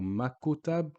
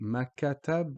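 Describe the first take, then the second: First: A 'u' vowel is inserted after the K. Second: An 'a' vowel is inserted after the K. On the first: "or makutab" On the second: "we don't actually say makatab"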